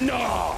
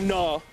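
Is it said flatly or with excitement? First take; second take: excitement; flatly. First: It is said loudly with excitement. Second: It is said flatly, without excitement.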